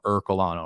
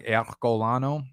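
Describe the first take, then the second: First: "Ercolano" said with an American "Er", like "ur-co-lano"; "Ercolano" said plainly with a hard American R. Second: "Ercolano" said the Italian way, open e, R dropped; Italian-style Ercolano. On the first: Shown as a demonstration. Host shows viewers the normal American way to say Ercolano. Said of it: "anyone who's a normal human would pronounce it". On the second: Retold or imitated. A stranger mispronounces Ercolano the Italian way. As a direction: someone guessing "Ercolano" with a rolled Italian sound. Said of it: "they tried first before I told them".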